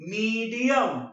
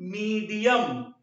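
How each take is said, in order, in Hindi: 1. पहला स्वर लंबा है और उस पर ज़ोर है। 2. पहला स्वर लंबा है और उस पर ज़ोर है।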